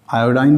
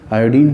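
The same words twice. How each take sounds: First: आयोडीन said as "aa-yo-dain"; "-ine" pronunciation. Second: आयोडीन said as "aa-yo-deen"; "-een" pronunciation. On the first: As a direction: end आयोडीन with a long "eye" sound, "-dain". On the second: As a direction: end आयोडीन with a long "ee" sound, "-deen". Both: Shown as a demonstration. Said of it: "कुछ लोग आयोडीन बोलते हैं".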